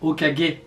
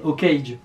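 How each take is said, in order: First: The word gets its authentic Japanese pronunciation. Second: The word gets a made-up, non-Japanese pronunciation. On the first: The speaker calls it right. "dans sa vraie prononciation" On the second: The speaker calls it wrong. "on le disait Hokage"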